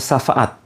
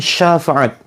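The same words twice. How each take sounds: First: The word begins with a plain 's' sound. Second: The word begins with an 'sh' sound. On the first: The word means a slap or blow. The speaker calls it wrong. "Bukan syafaat ... bukan pakai sin" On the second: The word means help or intercession. The speaker calls it right. "tapi syafaat ... pakai shin"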